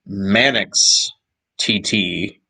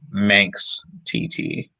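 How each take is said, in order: First: Manx is said with two syllables. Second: Manx is said with one syllable. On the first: This is how the English say it. The speaker calls it right. "the proper English way" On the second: This is how it looks when read. The speaker calls it wrong. "how you would probably read it"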